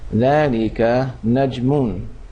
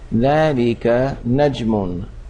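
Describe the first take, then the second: First: The last word keeps its full vowel ending. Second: The same.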